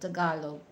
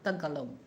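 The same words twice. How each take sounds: First: It is said the way Filipinos say it. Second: It is said the way Western people say it. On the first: The speaker calls it right. "that's uh the correct pronunciation" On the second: The speaker calls it wrong. "not Tagalog"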